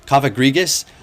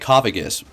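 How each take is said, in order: First: The name is said with four syllables. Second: The name is said with three syllables. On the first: The speaker calls it right. "There you go. Is that a little bit better?" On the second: The speaker calls it wrong. "I was calling it Coffagus because I like that sound"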